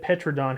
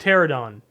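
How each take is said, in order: First: The word starts with 'peh', then 'tro'. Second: The word starts with 'teh', then 'ro'. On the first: The speaker calls it wrong. "I said Petrodon. Have I been saying that?" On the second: The speaker calls it right. "I know it's Pterodon"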